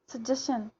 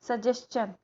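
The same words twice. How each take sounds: First: The ending is said with a shun sound. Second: The ending is said with a chun sound. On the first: The speaker calls it wrong. "चन को नहीं बोलते हैं, शन ही बोलते हैं" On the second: The speaker calls it right. "वो चन का आना चाहिए"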